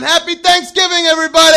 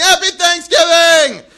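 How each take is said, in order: First: High, loud holiday holler; calling to crowd. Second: High, loud comedian-style holler; mock crowd yelling back, drawn out and high; slow, high-pitched shouted caricature; Seinfeld. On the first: Retold or imitated. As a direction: greet a whole parade crowd at the top of your voice. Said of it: "I'm going up to the sidelines going". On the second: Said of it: "they all sound like Seinfeld in my head".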